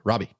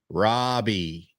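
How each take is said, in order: First: The name is said at a faster pace. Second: The name is said at a slower pace.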